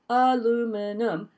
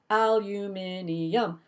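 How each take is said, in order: First: The word is said with four syllables. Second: The word is said with five syllables. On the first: "this is a four syllable word" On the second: "you put a fifth one in there"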